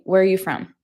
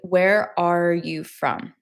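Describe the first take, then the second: First: Where and are blur together quickly. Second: Each word is said fully and separately. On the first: "when I say it quickly" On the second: "Just say"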